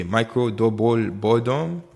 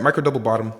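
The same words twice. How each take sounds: First: Slow, hammed-up Haitian accent; playful Haitian accent. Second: Said in the usual way. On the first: Trader re-explaining the chart pattern, exaggerated Haitian accent. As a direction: draw it out in a mock-heavy Haitian accent. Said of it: "if you don't understand my accent". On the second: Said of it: "you can tell I'm Haitian".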